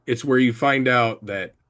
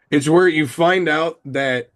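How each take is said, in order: First: Talking while chewing gum; words around a wad of gum. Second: Said in the usual way. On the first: Real, not acted. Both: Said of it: "I cannot talk and chew bubblegum".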